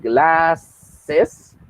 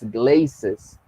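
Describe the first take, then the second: First: The first vowel is short, as in cat. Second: The first vowel is long, as in came. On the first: The speaker calls it right. "glasses suena de esa manera" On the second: The speaker calls it wrong. "y no es glazes"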